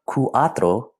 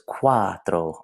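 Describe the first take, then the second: First: The two vowels are said as separate syllables. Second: The two vowels glide together into one syllable. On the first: The speaker calls it wrong. "instead of saying cuatro" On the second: The speaker calls it right. "it blends together and says cuatro, almost like a W is in there"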